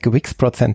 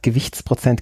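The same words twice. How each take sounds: First: It is said with an American accent. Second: It is said with a plain German accent. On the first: "Deutsch mit amerikanischem Akzent" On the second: "statt Gewichtsprozent"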